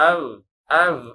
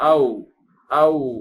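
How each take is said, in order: First: It ends with a teeth-on-lip v sound. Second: It ends with a rounded-lip w sound. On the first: The speaker calls it wrong. "அப்படி சொல்லக்கூடாது" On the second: The speaker calls it right. "எப்படி சொல்லணும்?"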